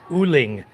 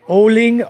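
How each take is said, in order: First: The first vowel is an 'oo' sound. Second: The first vowel is an 'oh' sound. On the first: "or U L I N G" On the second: "O L I N G"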